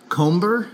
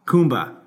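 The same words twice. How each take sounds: First: "Comber" with a short o, unsure; wrong name. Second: "Coomba" with an Australian dropped r; Australian pronunciation. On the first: Real, not acted. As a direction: says "Comber" as in comb. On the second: Shown as a demonstration. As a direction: says "Coomba", no final r. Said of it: "my Australian accent".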